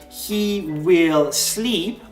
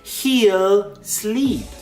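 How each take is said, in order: First: The word will is said in full. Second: The word will is contracted onto he. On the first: "instead of saying" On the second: "It can also be contracted, just to make it quicker and easier to say"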